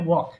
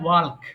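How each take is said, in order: First: No L sound is pronounced before the K. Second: An L sound is pronounced before the final K. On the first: The speaker calls it right. "এল উচ্চারণ হবে না" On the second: The speaker calls it wrong. "এটা ভুল করে অনেক মানুষ বলে থাকে ওয়াল্ক"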